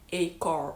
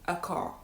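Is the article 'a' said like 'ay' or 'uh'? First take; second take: ay; uh. First: The article sounds like the letter name 'ay'. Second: The article is a weak 'uh' sound. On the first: The speaker calls it wrong. "We don't say a car" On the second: The speaker calls it right. "we say a car"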